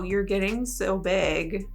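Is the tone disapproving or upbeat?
disapproving. It is said in a flat, disapproving tone. The remark passes judgment. "It was like, wow"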